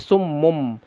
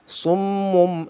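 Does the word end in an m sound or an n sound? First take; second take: m sound; m sound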